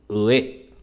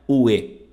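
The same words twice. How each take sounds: First: The first vowel sounds like a Japanese u. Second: The first vowel sounds like a Portuguese u. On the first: The speaker calls it right. "e sim ue" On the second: The speaker calls it wrong. "Não é ue"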